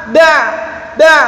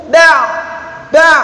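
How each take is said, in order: Both takes have the same delivery.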